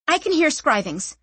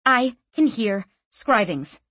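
First: Said in the usual way. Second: Slowly, stressing each word; slow and deliberate. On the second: A narrator's reading. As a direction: repeat it slowly, firmly. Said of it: "she said again".

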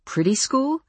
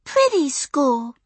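First: PRETTY SCHOOL lifted high into a rising question; puzzled question. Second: Put-on very high, slow small-child voice, falling at the end; slow, high preschooler statement; little girl repeating. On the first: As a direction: ask "Pretty school?" with the pitch climbing. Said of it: "I asked". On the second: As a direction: insist on "Pretty school" as a tiny kid. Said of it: "repeated Maya". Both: A narrator's reading.

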